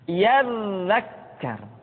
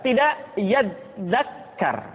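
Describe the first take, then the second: First: The dz sound flows out smoothly. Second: The dz sound is stopped or bounced. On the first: The speaker calls it right. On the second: The speaker calls it wrong.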